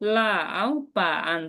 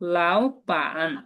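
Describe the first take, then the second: First: The first syllable dips in pitch. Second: The first syllable rises in pitch. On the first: The speaker calls it wrong. "এভাবে যদি বলি" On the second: The speaker calls it right. "প্রথম টোনটা সেকেন্ড টোনে বলবো"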